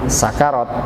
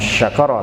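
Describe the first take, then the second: First: The word begins with a plain s sound. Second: The word begins with an sh sound. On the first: The speaker calls it right. "Sakarat pakainya sin" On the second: The speaker calls it wrong. "bukan syakarat"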